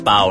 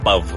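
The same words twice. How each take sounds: First: The word ends in an O sound. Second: The word ends in a V sound. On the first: The speaker calls it right. "That's Pow with an O, not with a V" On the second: The speaker calls it wrong. "not with a V"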